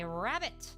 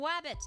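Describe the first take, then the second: First: The word begins with an r sound. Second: The word begins with a w sound. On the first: The speaker calls it right. "say rabbit with a r" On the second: The speaker calls it wrong. "They're saying wabbit"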